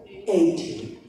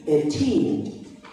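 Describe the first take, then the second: First: "eighty" stressed on the first syllable, EIGH-ty. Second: Put-on "eighteen" stressed on the last syllable, eigh-TEEN. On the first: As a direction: hit "eighty" on its opening syllable. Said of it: "the stress is here". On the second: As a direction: land "eighteen" hard on the teen. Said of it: "the stress is here in T". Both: Shown as a demonstration.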